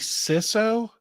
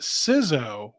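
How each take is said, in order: First: The middle consonant is an S sound. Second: The middle consonant is a Z sound. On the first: "I guess I could see C I S O" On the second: "with like a Z sound was really weird"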